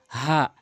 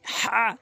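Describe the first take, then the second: First: Said in the usual way. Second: হা squeezed from mid-throat, higher pitch; strong pharyngeal হা, pitched up; throat-made হা. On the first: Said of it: "আর এটি হচ্ছে হা". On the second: Shown as a demonstration. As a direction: push হা out from the middle of the throat. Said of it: "হলকের মাঝখান থেকে হা".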